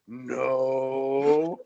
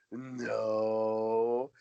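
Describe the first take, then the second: First: Flat, blunt one-word denial; the bodyguard's deadpan no. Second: Deadpan no. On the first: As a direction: drop a dead flat no. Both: Retold or imitated. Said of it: "it was exactly the same tone".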